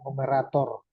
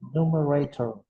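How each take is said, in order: First: It is said with an Indonesian accent. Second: It is said with an English accent. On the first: "orang Indonesia bilang numerator" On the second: "Kalau orang asing pronunciation ucapannya itu numerator"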